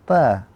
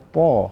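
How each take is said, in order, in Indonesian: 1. Bunyi t itu tipis dan ringan. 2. Bunyi t itu tebal dan berat. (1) "bukan ta" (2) "ta merupakan huruf yang tebal. Kita baca ta"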